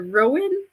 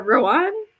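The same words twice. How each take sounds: First: "Rowan" said like ROH-win; "Rowan", second vowel as in win; first possible pronunciation. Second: "Rowan" said like roh-AHN; "Rowan", second vowel as in father; second possible pronunciation. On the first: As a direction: say "Rowan" with a short -in ending. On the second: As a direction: say "Rowan" with an open ah ending. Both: Shown as a demonstration. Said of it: "it could be either Rowan or Rowan".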